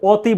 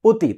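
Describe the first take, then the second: First: The first vowel is an open 'aw' sound. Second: The first vowel is a closed 'o' sound. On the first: The speaker calls it wrong. "আমরা স্বরেও তয় অতি বলি না" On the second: The speaker calls it right. "এটা বলি কি অতি"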